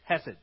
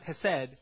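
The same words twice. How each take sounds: First: The stress is on the first syllable. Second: The stress is on the second syllable. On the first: The speaker calls it right. "the emphasis is on the he" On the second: The speaker calls it wrong. "not hesed"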